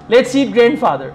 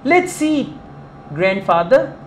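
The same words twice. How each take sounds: First: It runs on without a pause before grandfather. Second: There is a pause before grandfather. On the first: The grandfather is to be eaten. "It means let's go and eat grandfather" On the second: The grandfather is being invited to eat. "pauses are important"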